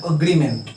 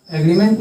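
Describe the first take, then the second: First: एग्रीमेंट started with a short "a" sound, "agreement"; correct pronunciation. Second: एग्रीमेंट said with an "e" sound at the start; wrong pronunciation. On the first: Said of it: "अग्री होता है". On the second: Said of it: "एग्रीमेंट नहीं बोलेंगे". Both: Shown as a demonstration.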